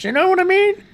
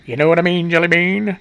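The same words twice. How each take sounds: First: High-pitched, worked-up check-in; excited high voice. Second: Corrected lower voice. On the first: Host worked up over hypocrites, excited high voice. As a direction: let the voice shoot up high with excitement. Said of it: "The more excited I get, the higher my voice goes". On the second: Host correcting an excited voice, corrected lower voice. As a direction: pitch brought back down. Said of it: "And then I gotta correct myself". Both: Real, not acted.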